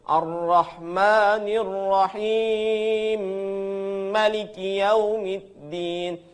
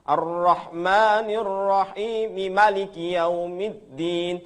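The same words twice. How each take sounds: First: The m of Rahim merges, doubled, into Maliki. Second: The m of Rahim is kept separate, not doubled. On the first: This follows one transmitted reading tradition. "Itu Abu Amr riwayat As-Susi" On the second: This follows another transmitted reading tradition. "dia tidak ada kalau yang tadi itu pakai tasydid"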